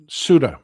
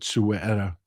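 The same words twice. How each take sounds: First: "Suda" in two syllables, SOO-duh; anglicized "Suda", no "e" sound in the middle; corrected pronunciation. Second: "Sueta" in three syllables, soo-ET-uh; mispronunciation. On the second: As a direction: say "Sueta" with an added "e" in the middle. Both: Shown as a demonstration. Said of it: "pardon me. I said Sueta".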